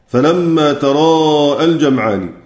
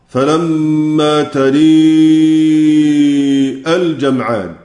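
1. الصوت بعد الراء فتحة مفتوحة. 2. الصوت بعد الراء مُمال نحو الكسرة.

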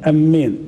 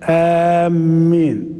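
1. الصائت الأول قصير، والـ m مشددة. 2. الصائت الأول ممدود، والـ m مشددة. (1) "تشديد، لكن الهمزة ما تمدهاش" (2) "والتشديد مع المد"

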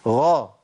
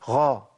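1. صوت الغين مجهور بوضوح. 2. الصوت يقع بين الغين والخاء.

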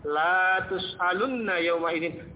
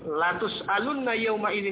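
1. Vokal suku kata pertama panjang. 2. Vokal suku kata pertama pendek.

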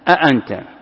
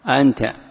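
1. كلتا الهمزتين تُنطقان كاملتين. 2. تتحول الهمزة الثانية إلى حرف مدّ. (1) "بتحقيق الهمزتين" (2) "الأولى همزة تظهرها والثانية تقلبها ألفا"

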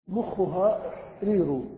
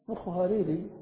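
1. الكلمة الأخيرة تنتهي بضمة. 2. الكلمة الأخيرة تنتهي بكسرة. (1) "مخها رير مبتدأ وخبر" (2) "فجر"

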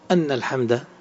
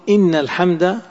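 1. تبدأ الكلمة الأولى بصوت 'a'. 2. تبدأ الكلمة الأولى بصوت 'i'. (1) "أن الحمد بالفتح" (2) "يقولون إن أجود"

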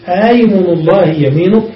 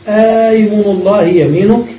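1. في البداية همزة نصفية مخففة. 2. الحرف الأول ممدود. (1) "ويجوز التسهيل" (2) "بالمد على الإبدال"

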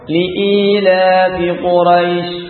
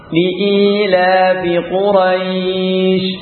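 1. Vokal pada quraish dibaca pendek. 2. Vokal pada quraish dibaca panjang. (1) "baca pendek ya" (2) "baca mad"

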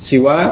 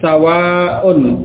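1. Vokal pertama adalah i, berakhir pendek. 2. Vokal pertama adalah a, berakhir panjang dengan hamzah. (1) "huruf pertama fa kalimah ini dibaca dengan kasrah" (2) "sinnya fa kalimah huruf pertama di fathah"

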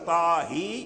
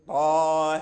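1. الحركة الأخيرة هي صوت 'ee' كامل. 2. الحركة الأخيرة تقع بين 'a' و'ee'. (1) "لا ينبغي أيضا إلى الكسر طاهي، لا" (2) "إذن اللفظ يعني من حيث التطبيق هكذا"

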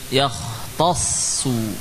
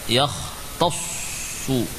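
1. Bibir membulat hanya pada suku kata terakhir. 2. Bibir sudah membulat sejak awal kata. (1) "Awalnya jangan kita langsung menghimpun bibir" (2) "Contoh yang kurang tepat"

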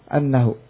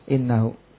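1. Kata ini diawali dengan vokal 'a'. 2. Kata ini diawali dengan vokal 'i'. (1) "membaca fathah hamzanya annahu" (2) "Sisanya baca dengan kasrah innahu"

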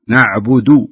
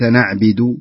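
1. الكلمة تُنطق بحركاتها الأصلية. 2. الكلمة تُنطق بحركات متغيرة.

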